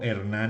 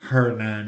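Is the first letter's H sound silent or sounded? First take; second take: silent; sounded. First: The name starts directly with the vowel. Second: The name starts with a breathy throat sound. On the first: "en español" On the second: "en inglés"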